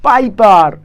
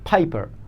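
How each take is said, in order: First: The p is plain, without a puff of air. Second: The p has a strong puff of air. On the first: The speaker calls it wrong. "হবে না বন্ধুরা?" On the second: The speaker calls it right. "পি না, ফি"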